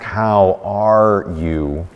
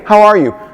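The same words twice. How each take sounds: First: It is asked heavily, with probing concern. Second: It is asked lightly and casually. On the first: It pressures the person to talk about their loss. The speaker calls it wrong. "You've trapped them either into responding or seeming rude" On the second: It is an easy greeting that needs no real answer. The speaker calls it right. "In a simple, hey"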